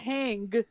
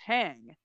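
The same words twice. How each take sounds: First: The word ends with a hard, stopped G. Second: The word ends softly, with a y-like sound. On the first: The speaker calls it wrong. "Not hang" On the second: The speaker calls it right. "It's just hang"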